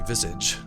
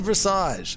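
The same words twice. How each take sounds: First: The word is said with a British pronunciation. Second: The word is said with an American pronunciation. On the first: "I think the British say Visage" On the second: "but I say Visage"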